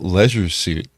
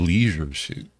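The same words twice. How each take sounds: First: Leisure is said the non-American way. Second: Leisure is said the American way. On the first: This is how the other person says it. "you call it leisure suit" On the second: This is how it is said in America. "In America, that would be leisure suit"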